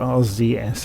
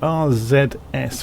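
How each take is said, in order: First: The letter Z is said the American way. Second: The letter Z is said the non-American way.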